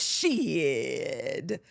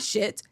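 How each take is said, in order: First: The word ends with an added D sound. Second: The word ends plainly with a T sound. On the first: "shit with the D on the end. After you get the T in, you get the D" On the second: "Not shit"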